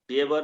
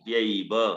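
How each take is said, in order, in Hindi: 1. 'v' से पहले का स्वर एक छोटी, सादी ध्वनि है। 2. 'v' से पहले का स्वर संयुक्त स्वर 'ai' है। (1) "प्यव नहीं"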